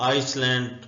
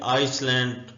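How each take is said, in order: First: The word is said with an s sound. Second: The word is said with an s sound.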